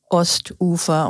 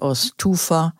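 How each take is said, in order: First: A glottal stop separates Ost from ufer. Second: The t runs straight into ufer without break. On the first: The speaker calls it right. "wir sagen zum Beispiel Ostufer" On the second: The speaker calls it wrong. "und nicht Osttufer"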